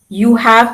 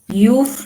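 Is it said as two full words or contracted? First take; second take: full; contracted. First: Both words are said in full. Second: The words are merged into one syllable. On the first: "You have becomes" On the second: "becomes you've"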